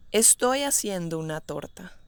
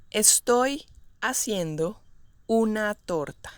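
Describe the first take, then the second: First: Said in the usual way. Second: Segmented example with clear pauses. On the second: Shown as a demonstration. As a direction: break the sentence up for learners. Teacher models example slowly, then naturally.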